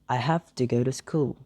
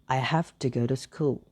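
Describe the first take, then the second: The two takes are said the same way.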